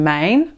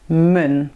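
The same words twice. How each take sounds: First: The word is said in its full form. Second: The word is said in a short reduced form. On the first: "in plaats van" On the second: "kun je zeggen"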